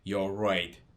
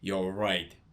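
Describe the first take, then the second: First: The first two words merge into one short syllable. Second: The same.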